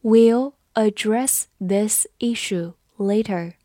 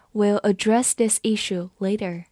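First: Word by word, pausing after each; slow read-along. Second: Said in the usual way. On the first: Shown as a demonstration. Teacher leads students through the sentence, slow and separated. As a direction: take it slowly so learners can repeat. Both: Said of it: "我们慢慢来读".

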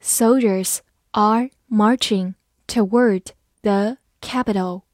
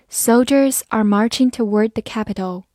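First: Slow, word by word; a teacher's slow model reading for learners to follow. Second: Said in the usual way. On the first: Shown as a demonstration. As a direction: read it slowly with clear gaps between words. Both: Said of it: "我们慢慢来读".

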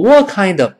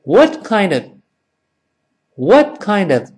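First: "what kind of" with "what" slurred to "waw", no stop; wrong dropped t. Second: "what kind of" with a brief stop on the t of "what"; higher model reading, "what" checked before linked "kind of"; unreleased t. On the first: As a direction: run "what" into "kind of", losing the t entirely. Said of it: "不能读成". (错误读法：what丢掉t，不顿挫) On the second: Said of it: "那个t尽管没有发音，但失去爆破". (what词尾顿挫一下，再连读kind of) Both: Shown as a demonstration.

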